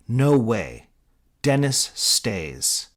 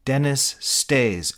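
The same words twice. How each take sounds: First: Loud, slow and stubborn; firm refusal. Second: Echo imitation. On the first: Acted. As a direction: plant your feet, refuse. Mitch refusing firmly. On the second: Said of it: "echoes Jadge".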